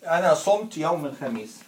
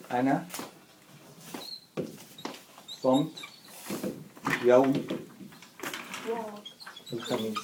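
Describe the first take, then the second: First: أنا صمت يوم الخميس run together fast as one phrase; أنا صمت يوم الخميس at quick natural conversational speed; fluent full sentence. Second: أنا, صمت, يوم, الخميس each said alone with long pauses between; word by word dictation. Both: Shown as a demonstration.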